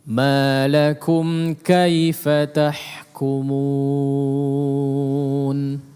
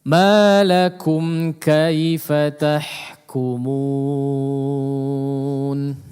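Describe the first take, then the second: The two takes are said the same way.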